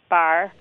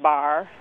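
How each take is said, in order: First: The vowel is pronounced slightly forward. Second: The vowel is pronounced far back. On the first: "we hear it somewhat fronted" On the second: "Rather than bar"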